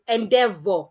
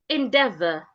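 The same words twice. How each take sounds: First: The final vowel is said with rounded lips. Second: The final vowel is said with relaxed lips. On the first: The speaker calls it wrong. "their mouth becomes rounded. It goes endeavor. No" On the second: The speaker calls it right. "Your mouth is supposed to be in a relaxed position"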